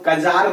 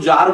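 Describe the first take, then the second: First: The word begins with a K sound. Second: The word begins with a Z sound. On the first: The speaker calls it wrong. "इसको कजार नहीं बोलते हैं" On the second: The speaker calls it right. "इसको जार बोला जाता है"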